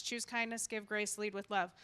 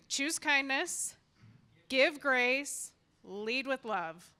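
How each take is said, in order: First: Said in the usual way. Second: Slow, each phrase punched like a slogan; proclaiming her catchphrase to the crowd; emphatic motto. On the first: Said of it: "I repeat that every day". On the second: Shown as a demonstration. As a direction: preach "Choose kindness, give grace, lead with love" slowly, leaning on "kindness" and "give". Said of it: "I always say what? Who knows what I say?".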